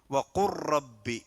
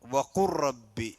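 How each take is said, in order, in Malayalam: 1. L ശബ്ദം അടുത്ത R ശബ്ദവുമായി ചേർന്നുപോകുന്നു. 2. L ശബ്ദം അടുത്ത R ശബ്ദവുമായി ചേർന്നുപോകുന്നു.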